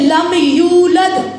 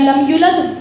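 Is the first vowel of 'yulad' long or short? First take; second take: long; short. First: The first vowel of 'yulad' is drawn out long. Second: The first vowel of 'yulad' is said short. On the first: The speaker calls it right. "मद आ रहा है, अलिफ के बराबर खींचेगा" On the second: The speaker calls it wrong. "मतलब बदल जाएगा"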